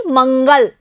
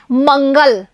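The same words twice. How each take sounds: First: मंगल with a full, strong nasal n before ग; stressed nasal n. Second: Said in the usual way. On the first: Shown as a demonstration. Teacher to pupils, modelling मंगल with a strong nasal n. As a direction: say मंगल pressing the n. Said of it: "तो न पे हमें ज्यादा जोर देना है". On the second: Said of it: "ये है मंगल".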